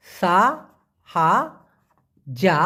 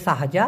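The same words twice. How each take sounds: First: সা, হা, যা with long pauses between; syllable by syllable. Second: সাহাজা as one word, sa-ha-ja; joined pronunciation. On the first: Teacher teaching the pronunciation, সা হা যা syllable by syllable. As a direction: spell out সা হা যা one syllable at a time. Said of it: "উচ্চারণটা হবে সাহাজা". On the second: Teacher modelling the whole word, সাহাজা run together. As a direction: say সাহাজা without breaks. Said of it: "উচ্চারণটা হবে". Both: Shown as a demonstration.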